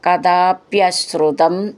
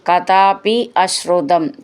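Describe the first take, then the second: First: The two words are merged into one. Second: The two words are said separately.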